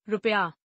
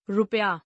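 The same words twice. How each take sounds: First: Said in the usual way. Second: रुपया starting with long oo, "roopaya"; mispronounced. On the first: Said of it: "शुद्ध". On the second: Shown as a demonstration. Teacher showing a u error, mispronounced with long oo. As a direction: stretch the first u of रुपया. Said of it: "अनशुद्ध".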